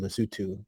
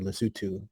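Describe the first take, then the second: First: It is pronounced the way the country's name is. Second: The same.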